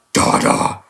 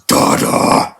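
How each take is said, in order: First: Devilish voice. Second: A hint of a demonic baby, whispered; devilish voice. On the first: Retold or imitated. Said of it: "He even says it like that". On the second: Reviewer imitating a devilish ogre Donkey, mock demonic whisper. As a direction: hiss it like a mock demon child. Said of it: "in a devilish voice".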